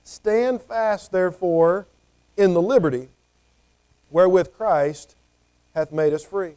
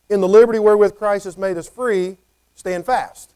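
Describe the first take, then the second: First: Measured reading of the verse, pausing on each phrase; scripture reading. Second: "In the liberty wherewith Christ has made us free" swelling louder toward "stand fast"; literal word order. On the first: Preacher reads Galatians verse to the congregation, measured and solemn. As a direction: read the verse slowly with weight. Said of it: "verse one here of Galatians says". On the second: Preacher shows congregation the emphasised Greek order, stressing "stand fast". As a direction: lean on "liberty", then land "stand fast" as the point. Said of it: "it's given some emphasis".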